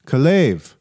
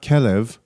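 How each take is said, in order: First: Kalev rising onto a strong last syllable; stress on second syllable. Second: Kelev hit on its opening syllable; stress on first syllable. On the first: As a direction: say Kalev as kuh-LAYV. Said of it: "No, not Kelev". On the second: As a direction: say Kelev as KEH-lev. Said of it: "I said, "No, not Kelev". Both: Retold or imitated.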